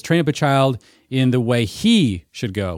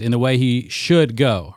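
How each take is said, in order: First: HE lifted and held, not should; slow, pressing the word "he" for the child's own way; stress on he. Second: In the way he SHOULD go, should weighted and falling; stress on should. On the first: Host showing how parenting books read it, stress on he. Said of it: "emphasized a different word than should". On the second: Podcast host showing the usual reading, stress on should. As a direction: lean on "should" as the obvious reading. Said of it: "two ways you can emphasize that line". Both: Shown as a demonstration.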